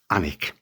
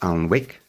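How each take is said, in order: First: The l and w sounds are silent. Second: The l and w sounds are pronounced. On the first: The speaker calls it right. "we say Anick" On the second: The speaker calls it wrong. "we don't pronounce it Alnwick"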